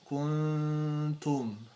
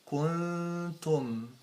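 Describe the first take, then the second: First: The lips stay rounded through the n sound. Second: The lips unround for the n sound. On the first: The speaker calls it wrong. "don't say it this way" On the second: The speaker calls it right. "you bring back your lips out from being in the position of the dhamma"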